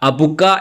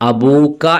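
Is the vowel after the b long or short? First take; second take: short; long. First: The vowel after the b is short. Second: The vowel after the b is long. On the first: The speaker calls it wrong. "എന്നല്ല പറയാ" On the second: The speaker calls it right. "എന്നാണ് പറയാ"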